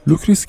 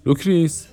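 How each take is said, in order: First: Said in the usual way. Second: Higher-pitched call of لوکریس across the house. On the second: A narrator's reading. Mishima calls his wife from the shop. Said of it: "رو به زنش فریاد زد".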